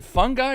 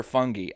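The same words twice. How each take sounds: First: "fungi" rhyming with "fun guy". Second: "fungi" with a final "ee" instead of "eye"; fungi as FUN-ghee. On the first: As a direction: say "fungi" with a hard g, ending like "eye". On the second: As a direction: say "fungi" with a hard g, ending in "ee". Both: Shown as a demonstration. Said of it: "I've heard it pronounced both ways".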